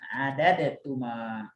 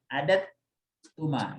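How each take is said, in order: First: The d sound is released separately with a bounce. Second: The d sound is merged into the t. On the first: "kalau dia adalah terpisah kita kolkolahkan" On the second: "kita udah terbiasa pasti mengidghamkan"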